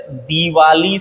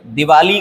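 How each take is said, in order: First: दिवाली slowly, with long dee; correct pronunciation. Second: दिवाली with short i, di-vaa-lee; wrong pronunciation. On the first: Teacher correcting it, दिवाली said slowly as dee-vaa-lee. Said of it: "सही है". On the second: Teacher showing the mistake, दिवाली said with short first vowel. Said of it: "गलत है". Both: Shown as a demonstration.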